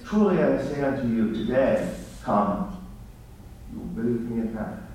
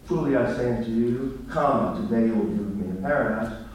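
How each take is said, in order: First: The break comes after the word today. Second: The break comes before the word today.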